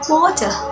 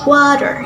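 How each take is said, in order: First: It is spoken with an Australian accent. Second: It is spoken with an American accent. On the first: "In Australian accents" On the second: "In American accent"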